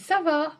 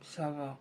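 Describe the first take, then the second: First: It sounds cheerful, as if things are fine. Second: It sounds gloomy, as if things are not fine.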